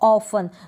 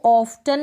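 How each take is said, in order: First: The t sound is left silent in the middle. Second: The t sound is pronounced in the middle. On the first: The speaker calls it right. "यहाँ पर भी टी silent है" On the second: The speaker calls it wrong. "इसको ऑफ्टन बिल्कुल ना पढ़ें"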